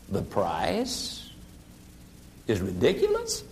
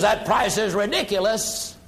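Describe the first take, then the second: First: Lowered voice. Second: Said in the usual way. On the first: Shown as a demonstration. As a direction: echo it back low and calm as a question. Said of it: "you simply lower your voice". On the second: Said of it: "The prospect who says".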